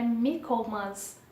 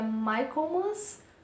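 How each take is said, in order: First: The first part does not sound like Michael. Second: The first part sounds like the name Michael. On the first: The speaker calls it right. "A pronúncia correta é Michaelmas" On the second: The speaker calls it wrong. "uma data referente a Saint Michael se chamaria Michaelmas"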